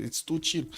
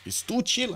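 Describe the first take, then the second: First: Said in the usual way. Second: "too" detto acuto e marcato, "chill" che cade; stress on too. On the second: Real, not acted. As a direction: punch "too" high and stretched. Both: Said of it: "I'm sorry to say it".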